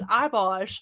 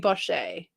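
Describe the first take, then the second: First: The word ends with a short 'sh' sound. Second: The word ends with a 'shay' sound. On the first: "It was Ibosh" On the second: "C H E is shay"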